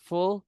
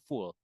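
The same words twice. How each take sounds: First: "full" higher, with short U; correct pronunciation. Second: "full" with long "oo", like "fool"; wrong pronunciation. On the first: Tutor modelling for learners, "full" correctly pronounced with short U. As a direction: say "full" with a short, high-pitched vowel. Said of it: "pakai U senyum". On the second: Tutor showing what to avoid, "full" mispronounced as "fool". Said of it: "bukan full". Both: Shown as a demonstration.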